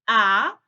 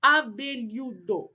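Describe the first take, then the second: First: "Abelhudo" loud, split a-be-lhu-do; long pauses between the syllables of "Abelhudo". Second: Said in the usual way. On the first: Shown as a demonstration. Teacher answering how to separate it, "Abelhudo" in separated syllables. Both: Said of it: "Como é que a gente vai separar".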